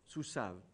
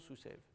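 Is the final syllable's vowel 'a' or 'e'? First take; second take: a; e. First: The final syllable is said with an 'a' vowel. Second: The final syllable is said with an 'e' vowel. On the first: This follows the Masoretes' pronunciation tradition. "une autre tradition de prononciation qui est celle-ci" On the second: This follows the other tradition, with the triphthong contracted. "l'autre tradition de prononciation"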